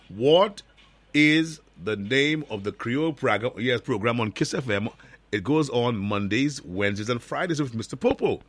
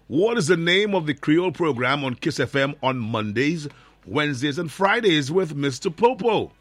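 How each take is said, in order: First: The question is asked at a slower pace. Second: The question is asked at a faster pace.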